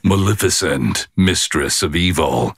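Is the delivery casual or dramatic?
dramatic. It is said in a deep, dramatic trailer voice. "That's more the style"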